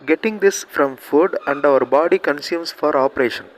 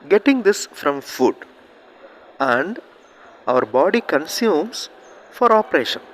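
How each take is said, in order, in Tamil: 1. வாக்கியம் இடைவெளியின்றி நேராக வாசிக்கப்படுகிறது. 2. வாக்கியம் சொற்றொடர்களுக்கு இடையே இடைவெளிகளுடன் வாசிக்கப்படுகிறது. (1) "இந்த மாதிரி ரீட் பண்ணோன்னா நீங்கள் அகைன் அண்ட் அகைன் ரீட் பண்ணி தான் மீனிங் அண்டர்ஸ்டாண்ட் பண்ண முடியும்" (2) "எந்த இடத்துல நிறுத்தணுமோ அந்த இடத்துல நிறுத்தி ரீட் பண்ணிங்கன்னா"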